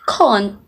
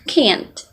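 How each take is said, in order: First: It is said in a British accent. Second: It is said in an American accent. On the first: "can't instead of" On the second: "instead of can't"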